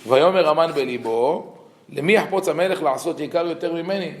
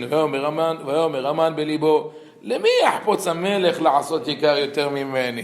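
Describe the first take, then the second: First: Said in the usual way. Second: Chanted, brisk cantillation of the verse, like the synagogue reader; quick liturgical chanting of the Hebrew; cantor's special chant. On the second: Retold or imitated. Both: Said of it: "our Hazan used to read with a special intonation".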